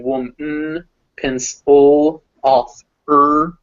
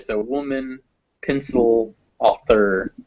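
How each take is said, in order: First: "pencil" and "author" louder with the middle vowel skipped; schwa dropped. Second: "pencil" and "author" with a light schwa kept in; careful schwa. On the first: Teacher shows words said without the little vowel. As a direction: say "pencil" as "pens'l". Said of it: "I'm just going". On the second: Teacher shows the little vowel kept in the words. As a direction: gently keep the small middle vowel in "author". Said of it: "that little vowel sound kind of in there". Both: Shown as a demonstration.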